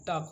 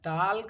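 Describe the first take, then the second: First: The L sound is silent in the word. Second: The L sound is pronounced in the word. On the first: The speaker calls it right. "टॉक होता है" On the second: The speaker calls it wrong. "टाल्क नहीं होता है"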